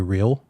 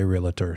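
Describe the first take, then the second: First: No vowel is heard between L and T. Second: An extra vowel is heard between L and T. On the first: The speaker calls it right. "Say realtor" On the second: The speaker calls it wrong. "don't say realtor"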